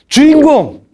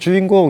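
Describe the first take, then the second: First: It is said loudly and forcefully. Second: It is said quietly and weakly.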